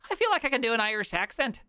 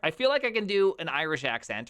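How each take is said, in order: First: It is said in a stereotypical Irish accent. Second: It is said in the speaker's normal American accent.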